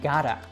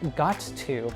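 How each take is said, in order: First: The two words merge into one. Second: Two separate words are said clearly.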